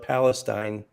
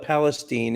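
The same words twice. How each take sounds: First: The name is said the usual standard way. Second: The name is said the local Texas way. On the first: This is how the name is normally said elsewhere. "instead of Palestine" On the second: This is how the town's residents say it. "They call it Palestine"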